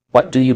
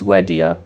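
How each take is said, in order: First: Said in the usual way. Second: "wedia", three words blurred into one; "wedia" as a reduced what do you; connected speech. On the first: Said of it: "They don't pronounce every word clearly". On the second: Shown as a demonstration. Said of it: "They connect words together".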